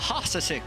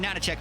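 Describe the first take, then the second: First: The name is said with H sounds. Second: The name is said with N sounds. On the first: The name is read as it looks on screen. The speaker calls it wrong. "it's spelled, you see it, it's a, a Hasasik or whatever" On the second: The letters are read as the player intends. The speaker calls it right. "it's a Nanachek because the H's ... are meant to look like N's"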